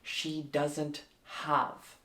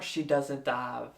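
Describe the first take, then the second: First: The H sound in have is clearly pronounced. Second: The H sound in have is dropped. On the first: The speaker calls it right. "You need to hit the H" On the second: The speaker calls it wrong. "Not she doesn't have"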